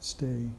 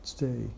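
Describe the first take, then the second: First: The weak first vowel is dropped. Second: The same.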